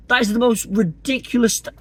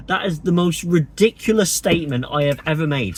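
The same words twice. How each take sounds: First: Higher and breaking into laughter mid-sentence; cracking up. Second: Said in the usual way. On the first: Real, not acted. Vlogger failing to keep a straight face, laughing. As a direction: try to say it straight but crack up. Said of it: "I can't say it with a straight face". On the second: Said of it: "can't say it with a straight face".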